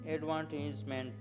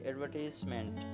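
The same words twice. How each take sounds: First: It is said in an American accent. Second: It is said in a British accent. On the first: "Americans say" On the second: "British people say"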